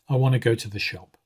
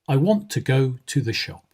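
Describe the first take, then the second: First: The unstressed vowels are reduced to schwa. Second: The unstressed vowels are said fully and clearly. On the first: The speaker calls it right. "the more natural way to say this would be" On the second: The speaker calls it wrong. "Listen to this first way of saying it"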